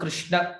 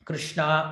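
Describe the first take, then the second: First: The final vowel is short. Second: The final vowel is long. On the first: It names the god Krishna. "கிருஷ்ண அப்டின்னா நம்முடைய கிருஷ்ணர்" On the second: It names Draupadi. "கிருஷ்ணா அப்டின்னு கூப்பிட்டீங்க அப்டின்னா, அது திரௌபதியினுடைய பெயரா"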